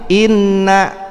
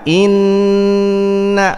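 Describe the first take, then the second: First: The n is doubled without a nasal hold. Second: The n is doubled and held with nasal resonance. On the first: "pasang tasdid" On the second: "pasang gunnah"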